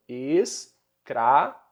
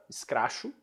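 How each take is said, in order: First: ES-CRA-CHO read out slowly, one syllable at a time. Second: Said in the usual way. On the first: Shown as a demonstration. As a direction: sound out "Escracho" in separate syllables. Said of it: "você vai ler como?".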